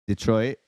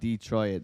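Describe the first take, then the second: First: It is said with an English pronunciation. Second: It is said with an American pronunciation. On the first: This is how the English friends say it. "They call it Detroit" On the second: This is how the speaker says it. "They don't call it Detroit"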